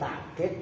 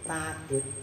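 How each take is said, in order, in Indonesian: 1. Ada hentian glotal setelah vokal pertama. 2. Vokal pertama panjang, tanpa hentian. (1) "kalau ini hamzah" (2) "kalau ini a, alif"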